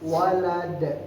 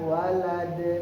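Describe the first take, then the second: First: The final d ends with a strong bounce. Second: The final d ends flat without a bounce. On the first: The speaker calls it right. "Harus walad... karena dia di akhir. Jadi qalqalah gadang" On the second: The speaker calls it wrong. "bukan walad"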